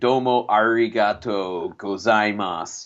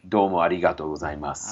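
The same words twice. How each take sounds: First: American accent with a strong, hard R sound. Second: Japanese accent with a light, L-like R sound. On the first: The speaker calls it wrong. "an American accent ... like a pirate R" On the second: The speaker calls it right. "the real pronunciation ... a less R and more L and D in the R"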